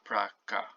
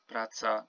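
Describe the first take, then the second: First: The middle consonant is a k sound. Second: The middle consonant is a ts sound. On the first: The speaker calls it wrong. "not praka" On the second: The speaker calls it right. "this C is pronounced ts, T with the S, and you say praca"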